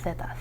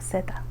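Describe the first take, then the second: First: The first sound is a soft th. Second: The first sound is a plain s. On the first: This is how it is said in Spain. "if you're from Spain, they have more of like a th sound" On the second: This is how it is said in most countries. "in most countries though, I would say that we just pronounce it as an S"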